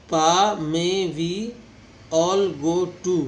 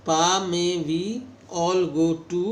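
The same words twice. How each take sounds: First: Very slow, every vowel stretched long; long vowels drawn out. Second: "pa may we all go to" with long vowels, a bit louder; long vowel demo. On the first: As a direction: pull each vowel out long and loud. (लंबे स्वर खींचकर, बहुत धीरे) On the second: (लंबे स्वर का उदाहरण) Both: Shown as a demonstration. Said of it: "long vowel".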